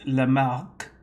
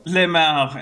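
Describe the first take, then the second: First: The final K sound is clearly pronounced. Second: The final K sound is left off. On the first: The speaker calls it right. "It's Lamarck. The K, the end" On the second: The speaker calls it wrong. "as if the K doesn't have"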